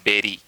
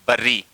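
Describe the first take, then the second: First: The first vowel sounds like the vowel in 'bed'. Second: The first vowel sounds like the vowel in 'fur'. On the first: The speaker calls it right. "लेकिन होता है बेरी" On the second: The speaker calls it wrong. "अपन बोलते हैं बर्री"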